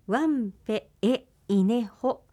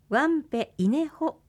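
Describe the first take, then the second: First: It is said with an extra e after wanpe. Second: It is said without an extra e after wanpe. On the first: The speaker calls it right. "ここで訂正です" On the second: The speaker calls it wrong. "ワンペイネホとテキストにはありますが"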